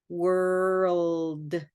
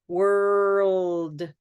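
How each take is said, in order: The two takes are said the same way.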